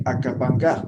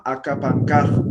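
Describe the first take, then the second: First: Said in the usual way. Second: Akapankaj said slowly, clearly syllabled; Aymara word. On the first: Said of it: "entonces no va a decir". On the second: Shown as a demonstration. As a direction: pronounce Akapankaj slow and clear. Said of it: "Por ejemplo". (pronunciación lenta de Akapankaj)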